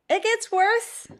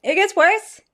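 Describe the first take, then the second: First: High and slow, a whimpering lament. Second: Pained outburst. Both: Real, not acted. Grimacing after the second sip.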